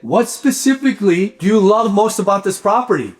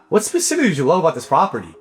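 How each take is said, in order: First: The question is asked in a warm, friendly tone. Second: The question is asked in a blunt, cold tone. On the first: The caller is building rapport with the client. The speaker calls it right. "But you see my tone?" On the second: The caller is interrogating the client. The speaker calls it wrong. "It's not"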